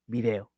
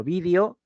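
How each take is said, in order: First: "video" as vi-DE-o, pitched lower; "video" stressed on the middle syllable. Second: "vídeo" as VÍ-de-o, rising at the end; "vídeo" stressed on the first syllable. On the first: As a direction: say "video" with the weight on DE. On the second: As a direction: say "vídeo" with the weight on VÍ. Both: Shown as a demonstration. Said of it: "no van a emplear la misma pronunciación".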